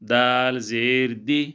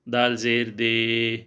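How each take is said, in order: First: The final vowel is kept short. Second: The final vowel is stretched out long. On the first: The speaker calls it right. "छोटा करके पढ़ेंगे" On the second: The speaker calls it wrong. "बाद लोग इस तरह पढ़ते हैं, लेकिन ये इस तरह गलत है"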